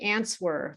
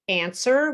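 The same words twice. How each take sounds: First: The W is pronounced. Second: The W is silent. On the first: The speaker calls it wrong. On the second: The speaker calls it right.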